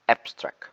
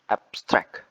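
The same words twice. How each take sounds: First: "abstract" as a noun, AB hit hard; stress on first syllable. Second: "abstract" as a verb, STRACT hit hard; stress on second syllable. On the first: Presenter demonstrating adjective or noun, stress on the first syllable. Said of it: "placed at the first syllable". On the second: Presenter demonstrating the verb, stress on the second syllable. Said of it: "placed at the second syllable". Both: Shown as a demonstration.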